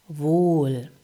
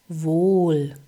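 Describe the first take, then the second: No difference in how they are said.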